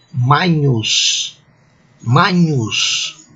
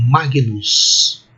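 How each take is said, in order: First: "Magnus" with gn blended into one ny sound; ecclesiastical Latin pronunciation. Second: Magnus with a hard g, then n; "Magnus" read the Brazilian school way, g sounded separately; traditional Latin pronunciation. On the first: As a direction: say "Magnus" as MAH-nyoos, church Latin. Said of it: "eu vou pronunciar assim". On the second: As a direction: say "Magnus" as MAH-gee-noos, g and n apart. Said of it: "eu vou ler assim". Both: Shown as a demonstration.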